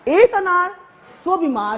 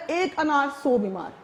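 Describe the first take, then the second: First: ایک hit higher and louder, then سو بیمار falls; stress on ایک. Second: Said in the usual way. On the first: Shown as a demonstration. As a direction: punch the word ایک in ایک انار. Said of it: "جی نہیں، ایسا نہیں ہے". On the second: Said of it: "جیسے یہاں میں نے مثال میں دیا ہے".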